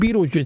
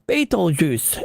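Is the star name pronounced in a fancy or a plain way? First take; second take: plain; fancy. First: The name is given a plain, everyday pronunciation. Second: The name is given a fancy, elaborate pronunciation. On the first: "They're not saying" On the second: "some astronomer decides to get all fancy with their pronunciation. They're like"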